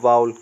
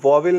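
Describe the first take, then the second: First: The first vowel sounds like 'ow'. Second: The first vowel sounds like 'aw'. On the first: The speaker calls it right. "ये है वाउल" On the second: The speaker calls it wrong. "आप कभी भी इसको वॉवेल नहीं बोलेंगे"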